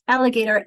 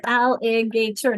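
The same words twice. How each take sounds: First: Said in the usual way. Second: Alligator said slowly as al-li-ga-tor; slow alligator broken into syllables; syllables counted. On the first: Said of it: "known other people to say". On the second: Shown as a demonstration. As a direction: count out each beat of alligator. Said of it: "Now let's count them".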